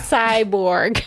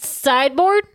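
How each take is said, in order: First: The word ends with a 'borg' sound. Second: The word ends with a 'board' sound. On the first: The speaker calls it right. "Because that's what it's actually" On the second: The speaker calls it wrong. "It's not really a pronunciation I legitimately thought it was"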